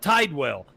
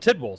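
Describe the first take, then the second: First: The first syllable has a long 'eye' sound. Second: The first syllable has a short 'i' sound. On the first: The speaker calls it wrong. "It's like there's no e in there. Why are you saying Tidewell?" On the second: The speaker calls it right. "my name is [name]"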